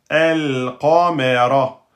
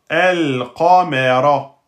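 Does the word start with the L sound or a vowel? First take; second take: vowel; vowel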